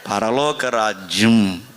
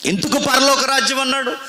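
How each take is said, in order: First: పరలోక రాజ్యం drawn out slowly, lower; slow, low quoting of పరలోక రాజ్యం; slow quoted phrase. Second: Said in the usual way. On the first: Shown as a demonstration. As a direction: slowly lay out పరలోక రాజ్యం, dropping the pitch.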